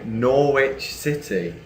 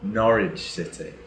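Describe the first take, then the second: First: It is said with a North American pronunciation. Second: It is said with an English pronunciation.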